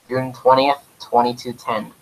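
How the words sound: It is said in a weird radio voice.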